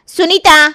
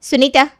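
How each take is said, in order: First: High, loud, sharp name call; insistent shout. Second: Raised-pitch first call of a name. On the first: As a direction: shout her name impatiently. Calls again louder, annoyed. (झल्लाकर ज़ोर से पुकारना) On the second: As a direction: call her name to interrupt. Calls her on the phone. (आवाज़ देकर बुलाना) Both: Acted.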